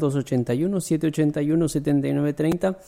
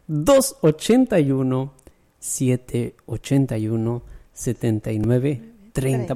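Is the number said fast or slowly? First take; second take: fast; slowly. First: The number is said fast. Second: The number is said slowly.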